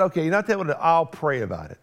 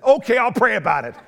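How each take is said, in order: First: Said in the usual way. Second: Louder, higher "Okay, I'll pray about it" with a laugh, grudging; grudging agreement. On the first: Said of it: "I didn't quite say it like that". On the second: Shown as a demonstration. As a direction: give in through clenched reluctance. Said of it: "that's really how I said it".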